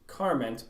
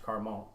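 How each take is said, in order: First: The name is said with plain English sounds. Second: The name is said with French-style sounds.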